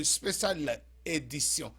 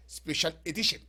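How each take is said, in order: First: "Special Edition" said the French way, "spé-syal é-di-syon"; French pronunciation. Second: "Special Edition" said the English way, "spe-shul e-di-shun"; English pronunciation. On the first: Host naming the show to fans, "Special Edition" in French pronunciation. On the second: Host repeating the show name, "Special Edition" in English pronunciation. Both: Real, not acted.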